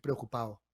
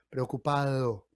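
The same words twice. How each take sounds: First: The d is dropped completely. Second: The d is soft and barely touches the teeth. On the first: "con el paso de las generaciones vamos a decir preocupado" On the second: "Decimos algo como estoy preocupado"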